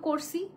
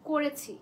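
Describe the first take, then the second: First: The verb is said in a shortened form. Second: The verb is said in its full form. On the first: The speaker calls it wrong. "এটাকে যদি বলি না করছি, হায় সর্বনাশ" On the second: The speaker calls it right. "মানে ধরো যে করেছি"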